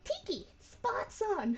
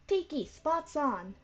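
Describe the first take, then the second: First: The line is said in a happy, upbeat way. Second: The line is said in a sadder, downcast way. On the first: The speaker calls it wrong. "that sounds too happy" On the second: The speaker calls it right. "Kinda sadder"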